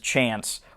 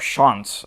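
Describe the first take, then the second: First: The name is said in a plain everyday way. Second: The name copies the film's own pronunciation. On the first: "His character's name is Chance" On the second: "as they say"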